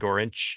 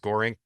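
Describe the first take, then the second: First: The name ends with a ch sound. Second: The name ends with a hard k sound. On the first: The speaker calls it right. "but it's really Gorinch" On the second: The speaker calls it wrong. "a lot of times you'll hear it pronounced Gorink"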